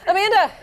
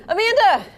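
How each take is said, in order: Both takes have the same delivery.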